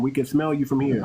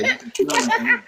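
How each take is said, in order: First: Said in the usual way. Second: High, exaggerated British accent put on to taunt; mock British accent. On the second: Mocking a British guest on the live stream, high mock British accent. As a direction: parrot her English accent in a high, prissy pitch. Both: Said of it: "Mock my accent".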